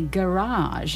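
It is said the American way, sounding French. "the Americans say garage, Like it's French"

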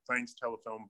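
It is said with a sarcastic tone.

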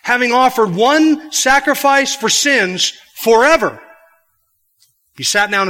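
The pause comes right after the word 'forever'. The sacrifice for sins lasts forever. "You could read it that way"

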